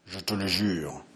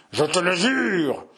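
First: Low, hushed solemn vow; hushed oath. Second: Higher, slow and deliberate vow; third oath, emphatic. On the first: Henri swears to his brother, hushed and solemn. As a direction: swear it quietly, gravely. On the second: Henri swears a third time, slow and insistent. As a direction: swear it slowly, each word weighed. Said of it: "pour la troisième fois". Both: Acted.

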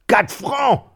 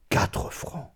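First: High, loud indignant cry; outraged shout. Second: Hushed, breathless echo of the price; whispered. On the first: Miserly widow outraged at the well-digger's price, loud high cry. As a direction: shriek it in disbelief. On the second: Narrator echoing the widow's outrage, whispered. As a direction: murmur it to yourself in shock. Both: A narrator's reading.

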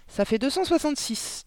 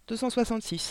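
First: Put-on high, gentle child answer, ça fait deux cent soixante-six said softly; a girl says the number softly and calmly; soft little girl voice. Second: Put-on lightly higher little girl repeating deux cent soixante-six gently; a girl says the number again, softly; child's soft voice. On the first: Girl answers her teacher in a soft voice. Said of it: "dit Mathilda d'une voix douce". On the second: Girl repeats her answer to teacher, softly. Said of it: "répéta Mathilda".

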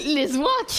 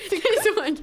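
First: Laughing repeat. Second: Giggling repeat; giggling as she echoes; laughing echo. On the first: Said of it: "péter les ouinques". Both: Real, not acted.

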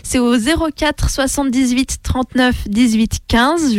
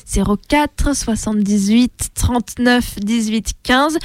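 First: Said in the usual way. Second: Slow, spaced-out phone number; slowly. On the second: Shown as a demonstration. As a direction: read each digit group slowly and clearly. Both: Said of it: "Je répète lentement".

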